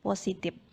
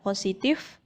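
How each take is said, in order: First: The word ends in a p sound. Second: The word ends in an f sound. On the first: The speaker calls it wrong. "yang salah" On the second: The speaker calls it right. "Yang benar"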